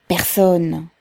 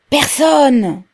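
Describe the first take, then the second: First: Said in the usual way. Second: High, loud shout of PERSONNE; echoing cry. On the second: A narrator's reading. A voice in the crowd echoes Pavel, crying out high and loud. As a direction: throw it back like an echo, loudly. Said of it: "Répéta une voix pareille à un écho".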